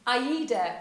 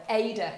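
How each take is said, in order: First: "aida" as eye-EE-duh, opening on the EYE vowel; letter-by-letter vowel pronunciation. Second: "aida" in two syllables, first rhyming with day; Tilly's pronunciation. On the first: Shown as a demonstration. Introducing the mnemonic to viewers, "aida" said with an EYE sound. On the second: Retold or imitated. Quoting a colleague's name for the mnemonic, "aida" as AY-duh. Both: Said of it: "as Tilly likes to call it".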